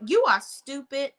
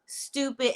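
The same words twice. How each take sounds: First: Stupid said firmly at full level; first blunt stupid; emphatic insult. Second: Stupid repeated much softer and falling; quiet echo of stupid. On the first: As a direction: land the word stupid hard. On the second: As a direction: drop your voice on the second stupid. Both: Real, not acted.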